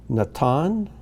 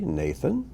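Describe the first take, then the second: First: Natan as na-TAHN, rising at the end; Hebrew pronunciation. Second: Nathan as NAY-thun; English pronunciation. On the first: Teacher reads the name list aloud, Hebrew pronunciation. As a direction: say Natan with open ah, stressed last syllable. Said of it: "these are the Hebrew pronunciations". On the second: Teacher gives the familiar name after it, English pronunciation. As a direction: say Nathan the English way, stress up front. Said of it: "or as we say". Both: Shown as a demonstration.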